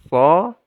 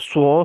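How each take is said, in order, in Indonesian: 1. Suku katanya diucapkan dengan bibir yang rileks, tidak membulat. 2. Suku katanya diucapkan dengan bibir yang sangat membulat. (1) "Biasa saja" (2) "Memonyongkan bibir so, sui, su. Itu salah"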